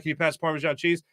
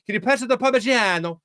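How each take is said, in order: First: Said in the usual way. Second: Hammed-up Italian accent, pitched higher; mock Italian flourish on the cheese's name; outrageous Italian accent. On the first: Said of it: "instead of saying". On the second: Host mocking non-Italian speakers, hammed-up Italian accent. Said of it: "wildly outrageous Italian accents".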